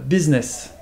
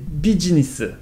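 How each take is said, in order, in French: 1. Dit avec un accent anglais natif. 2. Dit avec un accent coréen. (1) "le mot euh" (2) "tu vas le prononcer business"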